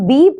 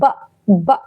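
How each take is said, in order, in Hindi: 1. इसे पूरे नाम से बोला जाता है, bee। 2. इसे एक छोटी buh ध्वनि से बोला जाता है। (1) "ये लेटर का नेम है" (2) "वह लेटर का साउंड है"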